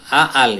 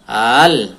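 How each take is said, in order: First: Two short vowels are said with a break. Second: One long vowel is drawn out smoothly. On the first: The speaker calls it wrong. "tidak dibaca A-al ya" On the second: The speaker calls it right. "Ada tanda panjangnya. Kayak mat"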